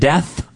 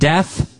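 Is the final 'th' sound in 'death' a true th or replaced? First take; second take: true th; replaced. First: The final th sound is a true th. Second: The final th sound is replaced by another sound. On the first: The speaker calls it right. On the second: The speaker calls it wrong.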